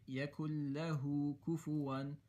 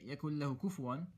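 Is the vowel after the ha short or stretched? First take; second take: stretched; short. First: The vowel after the ha is stretched longer. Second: The vowel after the ha is short. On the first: The speaker calls it right. "you're going to stretch the ha" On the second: The speaker calls it wrong. "you're not going to say"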